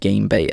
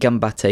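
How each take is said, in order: First: The name is said as 'Game Bait'. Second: The name is said as 'Gambate'. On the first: The speaker calls it wrong. "not Game Bait as I was saying before" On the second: The speaker calls it right. "is how you actually pronounce it"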